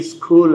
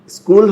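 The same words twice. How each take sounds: First: স্কুল with a puff after the k; alternative pronunciation option. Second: স্কুল with an unaspirated k; first pronunciation option. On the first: Teacher posing a choice to confused learners, aspirated k. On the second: Teacher posing a choice to confused learners, plain k. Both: Shown as a demonstration. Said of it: "আপনি কিন্তু confused".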